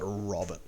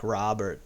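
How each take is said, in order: First: The name is said without an American accent. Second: The name is said in an American accent.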